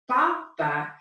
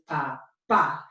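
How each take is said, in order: First: The stress is on the first syllable. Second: The stress is on the last syllable.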